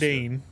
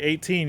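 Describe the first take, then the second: First: The middle T sounds soft, like a D. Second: The middle T is a clear, hard T. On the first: "kind of like a D instead of a T" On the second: "you don't say eighteen"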